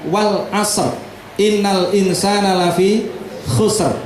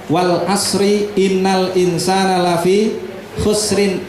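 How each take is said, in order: First: Word endings stop on consonants like asr, khusr. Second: Word endings carry added vowels like asri, khusrin. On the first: The speaker calls it right. "yang paling tepat" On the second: The speaker calls it wrong. "sering baca dengan tidak tepat"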